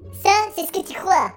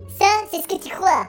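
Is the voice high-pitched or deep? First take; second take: high-pitched; high-pitched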